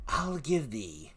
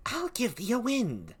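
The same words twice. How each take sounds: First: Said in the usual way. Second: "I'll give thee a wind" jumped up high; shrill witchy offer of wind; high cackling offer. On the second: Acted. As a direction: swoop up on "I'll". Same offer, pitched high.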